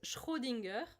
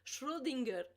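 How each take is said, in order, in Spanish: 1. El nombre se dice con una R al estilo francés. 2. El nombre se dice con una R al estilo español. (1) "en francés es Schrödinger, es más fácil" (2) "con la R española es aún más difícil"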